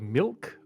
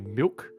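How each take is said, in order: First: The L is pronounced clearly. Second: The L sounds like a W. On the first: This is how Eastern States people say it. "They pronounce the L" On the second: This is how South Australians say it. "We kind of pronounce it like as a W"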